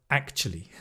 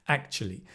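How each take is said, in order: The two takes are said the same way.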